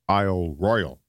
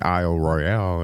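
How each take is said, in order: First: The second word sounds like English royal. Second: The second word sounds French, stress at end. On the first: This is how locals say it. The speaker calls it right. "it's pronounced there Isle Royal. It's not like what the French call the Big Mac" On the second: This is how an outsider says it. The speaker calls it wrong. "I've been pronouncing it Isle Royale, and it turns out I'm wrong"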